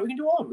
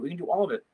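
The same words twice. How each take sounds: First: Jumps way up high, bubbling with excitement; eager. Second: Said in the usual way. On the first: Real, not acted. Teacher on a livestream excitedly promising viewers their song requests. Excited about playing songs.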